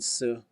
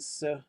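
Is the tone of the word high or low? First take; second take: low; high. First: The word is said on a low tone. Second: The word is said on a high tone. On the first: It means again, usually before the verb. "low tone su" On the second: It means also, usually at the end of a list. "a high tone su"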